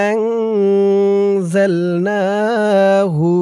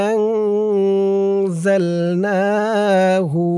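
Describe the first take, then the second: No difference in how they are said.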